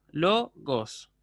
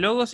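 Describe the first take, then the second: First: "lo, gos" with a break between syllables; teacher counting out "lo", then "gos". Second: Said in the usual way. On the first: Shown as a demonstration. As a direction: split logos into "lo" and "gos". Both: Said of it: "una palabra que tiene dos sílabas".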